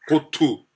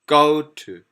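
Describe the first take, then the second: First: The word to carries the stress. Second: The word go carries the stress. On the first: The speaker calls it wrong. "우리 식으로 하면 to에 걸려버립니다" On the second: The speaker calls it right. "to 떨어집니다"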